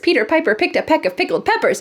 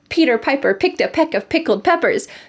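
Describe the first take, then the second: First: It is said at a very fast speed. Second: It is said at a moderate speed. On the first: "and faster" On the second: "Let's say it again"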